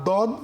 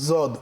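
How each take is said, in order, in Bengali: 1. এটি পাতলা, হালকা d ধ্বনি দিয়ে শুরু। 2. এটি z ধ্বনি দিয়ে শুরু। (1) "না দদ" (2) "না জদ"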